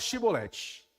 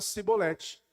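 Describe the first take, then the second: First: The word begins with an sh sound. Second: The word begins with an s sound. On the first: The speaker is a Gileadite. The speaker calls it right. "então fala Shibolete" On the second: The speaker is an Ephraimite. The speaker calls it wrong. "eles pronunciavam Sibolete, por uma diferença linguística"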